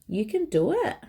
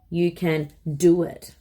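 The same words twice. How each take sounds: First: It is said with a questioning tune. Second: It is said firmly, like a command. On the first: It asks whether someone is able to do it. "like a question tonality" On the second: It tells someone to do it. "that's very command-like"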